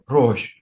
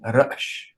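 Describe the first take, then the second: First: The aleph consonant is not sounded in the word. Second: The aleph consonant is sounded in the word. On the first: This is the later form of the word. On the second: This is the older form of the word.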